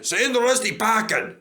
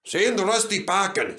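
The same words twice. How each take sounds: First: Chanted, higher, louder jeer; louder snorting chant. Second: Snorting chant. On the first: Chanted, Duncan jeering at Rusty, louder snort. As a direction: push the chant harder. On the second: Chanted, Duncan jeering at Rusty, snorting. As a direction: chant it cockily. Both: A narrator's reading. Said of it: "snorted Duncan".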